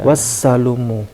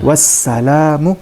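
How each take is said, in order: First: The vowel after the L is 'u'. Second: The vowel after the L is 'a'. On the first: The speaker calls it wrong. "bacaan yang benar adalah sebenarnya bukan wassalumu" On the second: The speaker calls it right. "bacaan yang benar adalah ... wassalamu"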